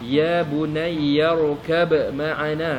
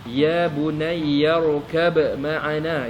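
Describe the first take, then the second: First: A distinct b sound is heard before 'ma'ana'. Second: A distinct b sound is heard before 'ma'ana'.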